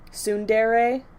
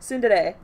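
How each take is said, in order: First: The word has an English-style pronunciation. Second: The word has a Japanese-style pronunciation. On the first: The speaker calls it wrong. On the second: The speaker calls it right. "I try to pronounce it as as Japanese as I can"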